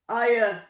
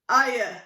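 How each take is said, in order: First: It is said in a big giant voice. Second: The same.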